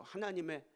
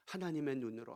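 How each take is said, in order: First: 하나님의 lifted high with a falling close; stress on 하나님의. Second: Said in the usual way. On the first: Shown as a demonstration. Preacher to congregation, 하나님의 pitched up and stressed. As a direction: hit 하나님의 much higher the second time.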